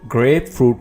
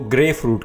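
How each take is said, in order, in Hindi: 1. 'grape' के अंत में p ध्वनि उच्चारित की जाती है। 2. 'grape' के अंत में p ध्वनि छोड़ दी जाती है। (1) "आपने ग्रेप फ्रूट पढ़ना है।" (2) "अक्सर लोग इसको ग्रे फ्रूट कहते हैं, तो ये गलत है।"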